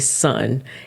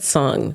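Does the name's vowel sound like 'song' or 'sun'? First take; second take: sun; song. First: The vowel sounds like the one in 'sun'. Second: The vowel sounds like the one in 'song'. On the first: The speaker calls it right. "I need to say sun" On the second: The speaker calls it wrong. "I said song"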